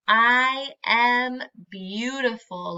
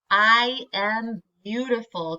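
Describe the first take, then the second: First: Slow, clear, every word said for the class to echo; slow and proud. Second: Said in the usual way. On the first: Shown as a demonstration. Teacher leading the class in saying the affirmation, slowly. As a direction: say it slowly so the children can join in. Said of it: "Can you say that with our little friend".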